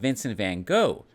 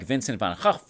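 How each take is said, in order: First: The name is said with an American pronunciation. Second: The name is said with a Dutch pronunciation. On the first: The speaker calls it wrong. "Most Americans mispronounce his name. It's not" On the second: The speaker calls it right. "It's more like"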